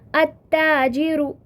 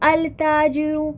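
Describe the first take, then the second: First: The L merges into a doubled T sound. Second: The L is clearly pronounced before the T. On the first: The speaker calls it right. "आपने ये नोटिस किया होगा कि मैं किस तरह से ... हरूफ शमसी को प्रोनाउंस कर रही हूँ" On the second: The speaker calls it wrong. "Sometimes student pronounce जैसे"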